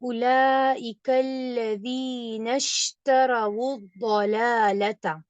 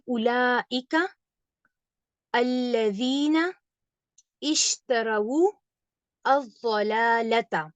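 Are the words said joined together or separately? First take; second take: joined; separately. First: The words run together, linked across each boundary. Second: Each word is said apart with its own start. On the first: "जब हम मिलाकर पढ़ते हैं" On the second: "जब हम अलग-अलग पढ़ते हैं"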